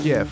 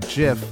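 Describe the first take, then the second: First: The word begins with a hard G sound. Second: The word begins with a soft J sound. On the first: The speaker calls it right. "with the hard G" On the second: The speaker calls it wrong. "not JIF, like the peanut butter"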